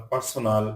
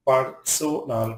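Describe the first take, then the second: First: Said in the usual way. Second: "personal" broken into three syllables; "personal" pulled apart for learners; split syllables. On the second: Shown as a demonstration. Word split by syllable, then whole.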